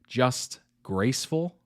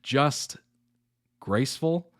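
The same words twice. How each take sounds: First: It is said fast, running the words together. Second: It is said slowly, words kept apart.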